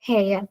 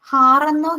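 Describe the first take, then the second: First: The vowel glides from 'e' toward 'uh'. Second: The vowel is a single open 'ah' sound. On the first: The speaker calls it right. "ഹേ ഇയ, എയ്" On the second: The speaker calls it wrong. "ഹാറെന്നോ ഹീറെന്നോ അല്ല നമ്മൾ അതിനെ വായിക്കുന്നത്"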